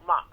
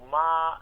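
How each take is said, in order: First: It is said with the fourth Mandarin tone. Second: It is said with the first Mandarin tone.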